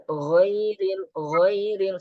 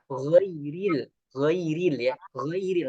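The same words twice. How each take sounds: First: Ghairil pitched high and tilted; wrong pronunciation. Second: Ghairil said clear and even; correct pronunciation. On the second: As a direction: say ghairil properly. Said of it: "Nah, ini butuh". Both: Shown as a demonstration.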